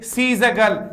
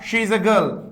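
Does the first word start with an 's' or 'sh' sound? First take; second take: s; sh. First: The first word starts with an 's' sound. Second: The first word starts with an 'sh' sound. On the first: The speaker calls it wrong. "कब से होने लग गया सी is a girl" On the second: The speaker calls it right. "That's why we should say शी is a girl"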